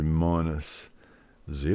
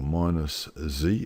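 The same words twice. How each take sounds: First: The letter is said the British way, zed. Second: The letter is said the American way, zee.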